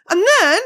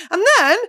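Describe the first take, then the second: No difference in how they are said.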